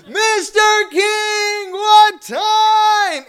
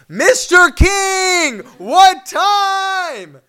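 First: High, loud, sung-out shout; frantic shout. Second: Slow, loud, high drawn-out shout. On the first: Fan in front of the car shouting at Larry King, loud sung shout. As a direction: wail it while waving your arms. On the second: Fan shouting at Larry King through the car, loud slow shout. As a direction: bellow through the car door. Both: Retold or imitated.

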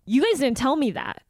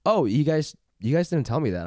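First: Sharper mock complaint, not sweet; imitating pissed customer. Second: Mild, even-voiced protest; calm retelling. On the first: Friend corrects how she told off the clerk, imitating her annoyance. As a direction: mimic your friend's annoyed protest. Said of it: "You did not say it that sweet". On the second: Customer recounts her complaint to the store, calm and sweet. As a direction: retell it calmly, sweet and reasonable. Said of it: "you said it in a calm".

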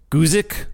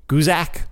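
First: Guzik ending in a short "ick"; unsure pronunciation. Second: Guzak ending in "ack"; alternative pronunciation. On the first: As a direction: try Guzik with a short i in the last syllable. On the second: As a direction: try Guzak with an a in the last syllable. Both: Shown as a demonstration. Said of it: "I have trouble with these names".

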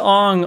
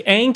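First: "Ong" with a broad "ah"; film's pronunciation. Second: "Aang" rhyming with "bang"; show's pronunciation. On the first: Co-host comparing the film's version, "Ong" with a broad "ah". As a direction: say "Ong" to rhyme with "song". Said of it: "hit the phonetics". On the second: Co-host comparing the two names, original "Aang" rhyming with "bang". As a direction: say "Aang" with a short front A. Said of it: "Aang to Ong almost sounds". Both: Shown as a demonstration.

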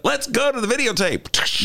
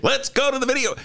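First: High hammed-up anchor call; sportscaster catchphrase. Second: High hammed-up sportscaster call; sportscaster catchphrase. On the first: Recalling a nineties sports guy, high announcer call. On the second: Imitating a nineties sports guy, high announcer call. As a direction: belt it like a nineties sports anchor. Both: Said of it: "there was a guy who used to do that".

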